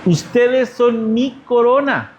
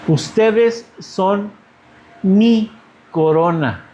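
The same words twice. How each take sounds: First: "Ustedes son mi corona" said slowly, stress falling on "Ustedes"; slow repeated quote. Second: "Ustedes son mi corona" drawn out, a long hold on "Ustedes"; slow, weighty, leaning on "Ustedes"; slow emphatic quote. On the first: Pastor repeating Paul's words to the congregation, slow and stressed. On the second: Pastor quoting Paul to his church, slow and weighty. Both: Shown as a demonstration.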